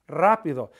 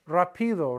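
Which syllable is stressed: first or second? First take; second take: first; second. First: The stress is on the first syllable. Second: The stress is on the second syllable. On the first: The speaker calls it right. "but it's rápido" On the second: The speaker calls it wrong. "If it weren't there, it would be pronounced rapido"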